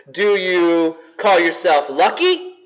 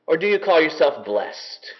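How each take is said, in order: First: Lucky lifted with a questioning rise; stress on lucky. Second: Blessed set down with a falling close; stress on blessed. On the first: Preacher sets lucky against blessed, rising stress on lucky. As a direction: lean on lucky and let it rise. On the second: Preacher answers lucky with blessed, falling stress. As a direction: land firmly on blessed as the answer. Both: Shown as a demonstration.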